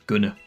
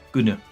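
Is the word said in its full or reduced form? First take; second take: reduced; reduced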